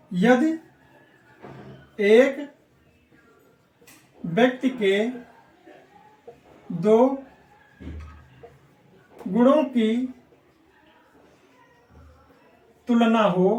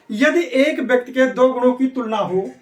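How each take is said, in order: First: Word by word, long pauses between words; slow dictation. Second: Said in the usual way. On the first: Shown as a demonstration. Teacher dictates the rule for students to note, slowly word by word. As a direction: dictate so the class can write it down. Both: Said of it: "तो note कर लो".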